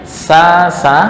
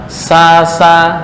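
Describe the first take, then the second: The two takes are said the same way.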